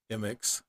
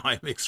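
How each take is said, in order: First: M X as "em-ex", without an opening eye; corrected pronunciation. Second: I M X with a leading "eye", like "eye-mex"; mistaken pronunciation. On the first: Interviewer trying the corrected name, M X as "em-ex". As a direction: say M X starting on "em". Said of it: "I've been saying I M X". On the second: Interviewer admitting his old mistake, I M X as "eye-mex". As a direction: start I M X on a long eye sound. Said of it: "I've been saying". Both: Shown as a demonstration.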